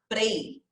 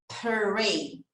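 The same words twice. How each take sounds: First: The P and R blend Portuguese-style into one sound. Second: The P and English R are sounded as two sounds. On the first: The speaker calls it wrong. "que é o que eu ouço na maioria das vezes, porque no português a gente fala assim" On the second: The speaker calls it right. "vamos juntar tudo agora? ... o P e o R vai ter esse pr"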